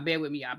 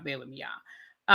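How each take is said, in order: First: A quiet, lower aside to viewers; soft repeat. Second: Slow, stretched, rising at the end; slow, low, drawn-out bear with me; drawn-out plea. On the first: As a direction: lower and much softer, almost to herself. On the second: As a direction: drag it out pleadingly. Repeating plea to viewers. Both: Real, not acted.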